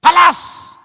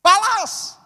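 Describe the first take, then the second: First: Much higher, much louder angry yell; imitating a wife shouting at her husband; wife's shout. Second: Much higher, much louder shrieking yell; imitating the wife's even higher shout; shout an octave up. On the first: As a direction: bark the order like a furious wife. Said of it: "Dia bilang gini". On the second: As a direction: push it up into a furious shriek. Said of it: "Dia naik satu oktav".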